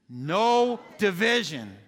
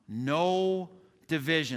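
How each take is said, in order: First: It is said with strong passion and force. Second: It is said calmly, without much force.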